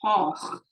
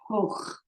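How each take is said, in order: First: The vowel sounds like aw. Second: The vowel sounds like oh. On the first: "if it's an aw" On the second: "if it's an o"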